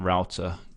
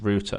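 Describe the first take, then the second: First: It is said with an American English pronunciation. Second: It is said with a British English pronunciation. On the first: The speaker calls it wrong. "not router" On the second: The speaker calls it right. "I can stick to my English roots"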